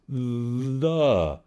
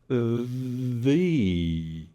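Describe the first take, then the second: First: The vowel is a short schwa sound. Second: The vowel is a long E sound. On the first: "That's what's called a schwa" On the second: "with a long E"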